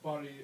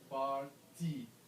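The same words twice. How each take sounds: First: The T sound is swallowed, barely heard. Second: The T sound is clearly pronounced. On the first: This is how people say it in the United States. "I hear how party is pronounced. ... So where is the T? ... Maybe you swallow it?" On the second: This is the standard way taught abroad. "They say party is pronounced this way, party. You have to pronounce that T"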